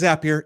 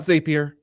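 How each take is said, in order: First: The word rhymes with happier. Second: The word does not rhyme with happier. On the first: The speaker calls it right. "It is Zapier, and it makes you happier" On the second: The speaker calls it wrong. "It's not Zapier. Don't call it Zapier"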